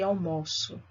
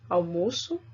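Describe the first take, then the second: First: It has the verb's pronunciation. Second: It has the noun's pronunciation. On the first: It means I have lunch. "Isso aí é verbo" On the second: It means the meal.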